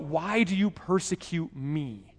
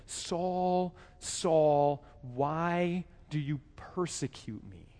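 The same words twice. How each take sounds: First: A slightly softer quote of the divine question; preacher retelling the heavenly voice's question; voice of God. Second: Soft, slow, drawn-out call of the divine voice; a hushed heavenly voice asking Saul why; voice of God calling. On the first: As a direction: ask it once, lightly acted. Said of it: "the voice calls out". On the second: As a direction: call his name gently, then ask slowly. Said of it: "he heard a voice say to him". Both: Acted.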